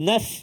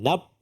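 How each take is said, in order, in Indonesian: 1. Suku kata ini diakhiri bunyi f berdesis. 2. Suku kata ini diakhiri bunyi p tertutup. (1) "Angin fa" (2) "itu pagar belum pasang"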